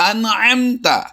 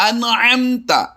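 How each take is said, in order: The two takes are said the same way.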